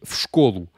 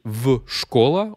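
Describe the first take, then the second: First: В школу run together as "fshkolu", ending in U; correct form demonstration. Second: В школа as a separate "ve", then "shkola" ending in A; wrong form demonstration. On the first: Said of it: "on aurait dit в школу". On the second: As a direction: split off в and end школа on A. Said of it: "on n'aurait pas dit". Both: Shown as a demonstration.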